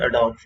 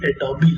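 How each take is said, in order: First: The word ends on the consonant b. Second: The word ends with an 'ee' vowel. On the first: The speaker calls it wrong. "वो कहते हैं जी अडोब Photoshop" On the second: The speaker calls it right. "ये एडोबी लफ्ज़ है"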